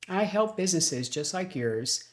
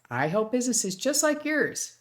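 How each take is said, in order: First: The tone is plainer and more businesslike. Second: The tone is warmer and friendlier.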